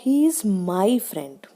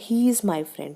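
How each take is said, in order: First: The stress falls on the word my. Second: The stress falls on the word he. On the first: He is a friend of mine, not anyone else's. "माई friend पे stress दिया उसने।" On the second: He, and not someone else, is the friend. "ही stress किस पे दिया उसने, ही पे।"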